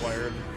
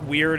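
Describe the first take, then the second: First: The word rhymes with 'fired'. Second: The word rhymes with 'beard'. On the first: "but I just call it wired" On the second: "I think weird is probably the correct pronunciation"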